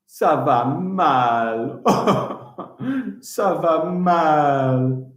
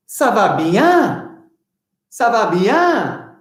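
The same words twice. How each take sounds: First: Mock glum ça va mal. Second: Ça va bien sung up high and slow; happy ça va bien. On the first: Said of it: "That means I am not good". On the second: Teacher to children, a cheerful high ça va bien. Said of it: "How are you?". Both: Shown as a demonstration.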